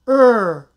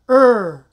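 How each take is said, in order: No difference in how they are said.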